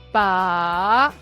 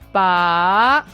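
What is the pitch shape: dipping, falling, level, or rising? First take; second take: rising; rising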